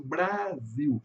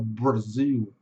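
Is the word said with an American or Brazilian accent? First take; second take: Brazilian; American. First: It has a Brazilian accent with a soft R. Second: It has an American accent with a strong R. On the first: This is how Brazilians say it. "Nós falamos Brasil" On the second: This is how Americans say it. "Eles falam puxado, fechado"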